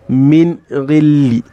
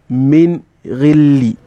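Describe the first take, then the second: Both takes have the same delivery.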